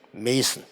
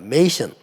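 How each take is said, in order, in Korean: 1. 두 번째 음절은 평범한 's' 소리예요. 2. 두 번째 음절은 'sh' 소리예요. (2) "제가 발음을 잘못하고 메이션 이렇게 했네요"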